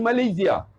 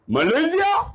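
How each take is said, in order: First: Said in the usual way. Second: High, rising surprised question; astonished echo, pitched up; startled. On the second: Retold or imitated. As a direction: imitate someone taken aback. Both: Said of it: "Dia terkejut".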